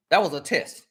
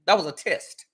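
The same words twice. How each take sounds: The two takes are said the same way.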